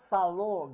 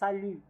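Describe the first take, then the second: First: The final vowel sounds like an o. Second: The final vowel is a rounded French u. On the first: The speaker calls it wrong. "It's not salo, guys" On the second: The speaker calls it right. "It's salut. U"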